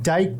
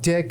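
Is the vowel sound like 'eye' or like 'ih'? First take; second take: eye; ih. First: The vowel sounds like 'eye'. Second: The vowel sounds like 'ih'. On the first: The speaker calls it wrong. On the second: The speaker calls it right.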